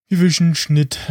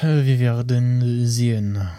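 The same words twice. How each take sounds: First: Slow, higher mock French accent. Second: Said in the usual way. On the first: Podcaster imitates dubbed Star Wars alien, mock French accent. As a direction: ham up a French alien accent from the German dub. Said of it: "den französischen Akzent von diesem einen komischen Magger". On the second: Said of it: "den französischen Akzent".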